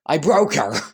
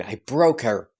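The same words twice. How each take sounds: First: Half-laughing panic, broke pushed out; alarmed exclamation. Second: Said in the usual way. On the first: Real, not acted. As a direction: repeat it with real alarm, a little louder. Narrator reacts to repeated name.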